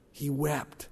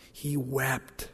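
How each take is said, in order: Both takes have the same delivery.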